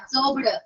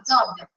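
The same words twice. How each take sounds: First: The final -ed sound is clearly released outward. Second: The final -ed sound is held in, not released. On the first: The speaker calls it wrong. "എല്ലാവരും അബ്സോർബ്ഡ് എന്ന് പറയും, അങ്ങനെയല്ല കേട്ടോ" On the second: The speaker calls it right. "ഇഡി ഇഡി അകത്തോട്ടാണ് പോകുന്നത്, പുറത്തോട്ട് വരുന്നില്ല"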